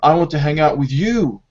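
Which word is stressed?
you. The stress falls on the word you. This particular person is wanted, not others. "not Amy or Melanie"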